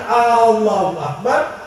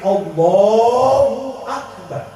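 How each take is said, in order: First: The first vowel of Allahu is drawn out long. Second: The la syllable of Allahu is drawn out long. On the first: It sounds like asking whether God is great. The speaker calls it wrong. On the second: It states that God is great. The speaker calls it right.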